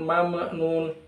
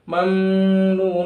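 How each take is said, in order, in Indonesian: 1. Huruf m pertama dilepas dengan sedikit memantul. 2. Huruf m pertama punya dengung panjang dan berat. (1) "terbaca dengan qalqalah misalnya mama nun, itu salah" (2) "dengan dengung mamnun itu juga salah"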